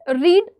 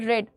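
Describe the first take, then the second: First: The vowel is long, like 'reed'. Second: The vowel is short, like 'red'. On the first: It is the present tense. "रीड का past tense होता है रेड" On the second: It is the past tense. "Past tense होता है रेड"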